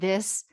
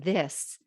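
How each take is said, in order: First: The voice sounds tense and constricted. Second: The voice sounds relaxed and open. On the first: The speaker calls it wrong. "if you're pushing your chin forward like this" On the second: The speaker calls it right. "except to allow the back of my neck to lengthen"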